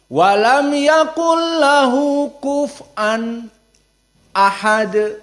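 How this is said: There is a brief stop before ahad. "namun ma'al as-saqt, di saat bertemu dengan hamzah ahad"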